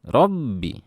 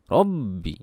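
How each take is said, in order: First: The doubled b gets heavy, exaggerated pressure. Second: The doubled b gets heavy, exaggerated pressure.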